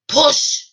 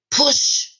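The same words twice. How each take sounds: First: High, rising call of push; calling out again. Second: A high, breathy shout of push; sharp high command. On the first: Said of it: "the driver called again". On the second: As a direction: bark it high and urgent. Driver urges her to push. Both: Acted.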